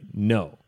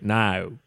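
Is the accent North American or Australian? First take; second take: North American; Australian. First: It is said in a North American accent. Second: It is said in an Australian accent.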